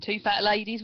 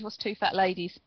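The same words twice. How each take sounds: First: Bingo caller. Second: Said in the usual way. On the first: Pretend. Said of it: "Sounds like a bingo call".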